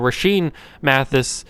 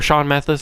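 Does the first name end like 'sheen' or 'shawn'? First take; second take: sheen; shawn. First: The first name ends with a 'sheen' sound. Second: The first name ends with a 'shawn' sound. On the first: The speaker calls it wrong. "not Rashean" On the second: The speaker calls it right. "I think is how you say it"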